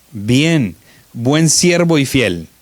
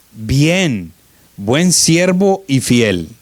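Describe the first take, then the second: Both takes have the same delivery.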